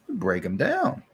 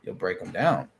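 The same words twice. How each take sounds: First: "You'll break 'em down" said higher, rising on "down"; rising repeat. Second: "you'll break 'em down" said much lower, falling at the end; low falling line. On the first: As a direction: lift it up like an echo. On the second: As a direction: settle it low and final. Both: Acted. Repeats the line twice.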